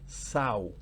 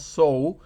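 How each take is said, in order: First: It is said like the noun meaning female pig. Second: It is said like the verb meaning to plant. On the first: The speaker calls it right. "sino que se pronuncia sow" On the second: The speaker calls it wrong. "en este caso no se pronuncia sow"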